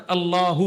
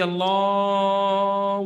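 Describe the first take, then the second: First: اللہ said short, vowel not stretched; short correct Allah. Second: اللہ drawn out very long and slow; mock the over-stretched azan call, dragging اللہ; overlong stretched Allah. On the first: Shown as a demonstration. Teacher showing listeners the right length, short clipped اللہ. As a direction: say اللہ crisply with no drawn-out vowel. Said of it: "یہ اللہ ہی ہے بس". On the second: Preacher mocking a muezzin's stretched call, slow drawn-out اللہ. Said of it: "وہ اتنا کھینچتا ہے اذان کو".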